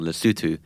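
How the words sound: The name is said with a British pronunciation. "which is the British pronunciation"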